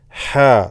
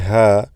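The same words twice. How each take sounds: First: The h sound is strong and brought out. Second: The h sound is light and not brought out. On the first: The speaker calls it right. "make sure you bring that sound out" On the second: The speaker calls it wrong. "Don't say ha"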